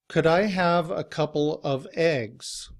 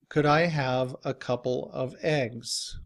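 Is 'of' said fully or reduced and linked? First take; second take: fully; fully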